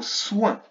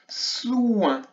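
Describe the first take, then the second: First: Said in the usual way. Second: Soin higher, with S and OU stretched into IN; drawn-out word. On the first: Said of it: "avec le mot soin". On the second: Shown as a demonstration. Teacher sounding out soin for pupils, drawn out. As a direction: draw Soin out as one long syllable. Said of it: "une seule syllabe à nouveau".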